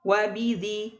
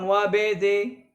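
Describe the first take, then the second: First: The b is pronounced light and thin. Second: The b is pronounced heavy and thick. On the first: The speaker calls it right. "Bidzi tipiskan" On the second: The speaker calls it wrong. "bukan wa bidzi"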